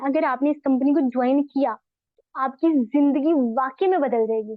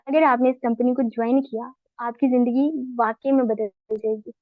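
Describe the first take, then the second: First: It is said with lively, excited energy. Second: It is said flatly, without excitement or energy. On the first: The speaker wants the listener excited to join. "पहले मैं energy में" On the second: The speaker is only passing on information. "इसमें कोई excitement नहीं है, कोई energy पास नहीं हुई"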